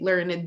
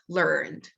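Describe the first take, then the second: First: The ending is an extra syllable. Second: The ending is a single consonant sound. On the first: The speaker calls it wrong. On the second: The speaker calls it right.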